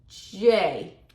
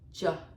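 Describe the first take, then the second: First: It is said as the full letter name. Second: It is said as a short bare consonant. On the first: "알파벳 J는 어떻게 발음하시면 쉬우시냐면요" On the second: "단어에서 쓰일 때"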